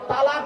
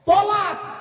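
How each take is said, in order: First: The first vowel is a long a sound. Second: The first vowel is a short o sound. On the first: The speaker calls it wrong. "শব্দটা তালাক নয়" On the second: The speaker calls it right. "শব্দটা কি শুনুন"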